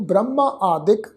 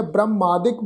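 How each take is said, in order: First: ਬ੍ਰਹਮਾ ਆਦਿਕ as two separate words; split into two. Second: ਬ੍ਰਹਮਾਦਿਕ run together as one word, "brah-maa-dik"; joined reading. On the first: Teacher splitting the compound, ਬ੍ਰਹਮਾ ਆਦਿਕ as two words. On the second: Teacher reading the compound, ਬ੍ਰਹਮਾਦਿਕ as one joined word. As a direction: join ਬ੍ਰਹਮਾਦਿਕ with a single long aa. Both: Shown as a demonstration. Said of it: "ਦੋ ਸ਼ਬਦਾਂ ਨੂੰ ਮਿਲਾ ਕੇ".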